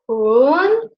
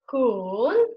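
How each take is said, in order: First: The pitch rises through the syllable. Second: The pitch dips low and then rises. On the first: "the second tone, which goes from one to four, like this, up" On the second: "this one starts up, goes down, and again up"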